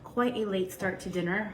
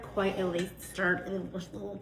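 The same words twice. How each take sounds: First: Said in the usual way. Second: Tongue-tied "late Start", trailing into garbled "ugh, ugh". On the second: Real, not acted. Cook flubbing her line about a late dinner, tongue-tied. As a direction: stumble after "quite a late Start" into soft babble. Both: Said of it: "can't talk".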